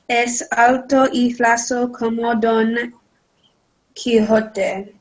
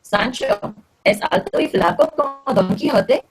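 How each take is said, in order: First: "es alto y flaco como Don Quijote" read flat with no question rise; wrong tune, no rise at the end on "Quijote"; flat statement. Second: "Sancho es alto y flaco como Don Quijote" with a rise on "Quijote"; question intonation. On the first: Real, not acted. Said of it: "you need to change your intonation". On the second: Shown as a demonstration. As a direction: pitch climbs at the end of "Quijote" like a question. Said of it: "change your intonation, right? You started a question".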